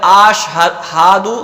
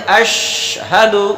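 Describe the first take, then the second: First: Some vowels are drawn out and lengthened. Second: The vowels are kept short, not drawn out. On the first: The speaker calls it wrong. "तो गलत हो जाएगा" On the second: The speaker calls it right. "बगैर खींचे पढ़ेंगे"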